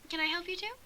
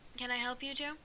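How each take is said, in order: First: It is said in a higher, female-sounding voice. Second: It is said in a deep, male-sounding voice. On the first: The speaker calls it right. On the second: The speaker calls it wrong.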